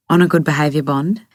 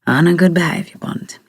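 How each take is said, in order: First: "bond" lifted in a rising question. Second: Amused echo of "good behaviour bond"; said with laugh. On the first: Acted. Rosie querying Jimmy about his bond, questioning rise on "bond". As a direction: end on a clear rise at "bond". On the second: A narrator's reading. Jimmy echoing her question back, lightly amused voice. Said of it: "he says with a laugh".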